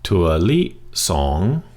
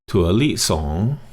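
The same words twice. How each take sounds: First: The phrase is said at a slower pace. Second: The phrase is said at a faster pace.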